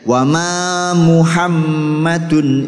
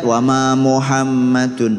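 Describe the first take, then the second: First: The first syllable is said 'mu' with 'u'. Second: The first syllable is said 'mo' with 'o'. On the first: The speaker calls it right. "harus mu" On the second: The speaker calls it wrong. "Jangan sampai ... mo, itu bukan u"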